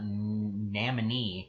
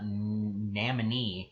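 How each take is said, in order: First: The name is said as 'Namini'. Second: The name is said as 'Namini'.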